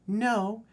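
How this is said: It is said in a put-on female voice.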